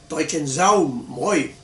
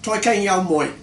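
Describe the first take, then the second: First: The third word begins with a Z sound. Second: The third word begins with a G-like sound. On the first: This is the northern pronunciation. The speaker calls it right. "in the north and there uh, you pronounce the D as a Z" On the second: This is the southern pronunciation. The speaker calls it wrong. "in the south uh, where they pronounced uh, sans serif D as a G"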